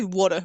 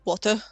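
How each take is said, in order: First: The middle consonant is a soft D sound. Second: The middle consonant is a clear T sound. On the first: "I say water with D, not T" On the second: "Most of people would say with a, like a water"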